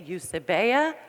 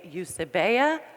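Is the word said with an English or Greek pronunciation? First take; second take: English; English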